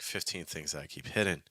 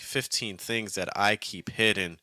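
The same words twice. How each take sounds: First: The words follow a loose, speech-like rhythm. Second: The words follow a strict, regular beat. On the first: The speaker calls it right. "might sound a little bit more like natural" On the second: The speaker calls it wrong. "if you're going hardcore with the meter"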